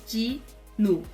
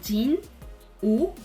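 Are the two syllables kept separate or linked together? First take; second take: linked; separate. First: The n carries over into the second syllable. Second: The two syllables are said separately. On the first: This is how it is actually spoken. "na hora de pronunciar, você pode pronunciar como se fosse Jinu" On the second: This follows the written syllables. "O hangul dele é Jin, U"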